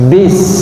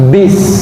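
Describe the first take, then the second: Both takes have the same delivery.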